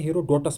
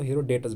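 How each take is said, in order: First: हेरोडोटस said as "hero-DOTUS"; "dotus" ending on हेरोडोटस; preferred pronunciation. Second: हेरोडोटस said as "hero-DETUS"; "detus" ending on हेरोडोटस; alternative pronunciation. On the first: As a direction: say हेरोडोटस with an o in the third syllable, "do". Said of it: "पढ़ो इसको". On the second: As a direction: say हेरोडोटस with an e in the third syllable, "de". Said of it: "कुछ लोग इसको हेरोडोटस भी पढ़ते हैं". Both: Shown as a demonstration.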